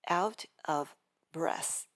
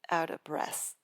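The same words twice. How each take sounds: First: The word 'of' keeps its full V sound. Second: The word 'of' is reduced to 'a'.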